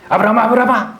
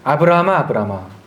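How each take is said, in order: First: The name is called out quickly and urgently. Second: The name is called in a calm, even way.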